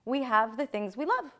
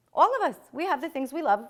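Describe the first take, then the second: First: Said in the usual way. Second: Louder, faster, stress on All; emphatic restatement. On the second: Shown as a demonstration. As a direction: punch the word All and drive the line.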